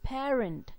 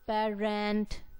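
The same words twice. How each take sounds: First: The stress is on the first syllable. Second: The stress is on the second syllable. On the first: The speaker calls it right. "So the stressed syllable is par" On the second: The speaker calls it wrong. "We do not say parent"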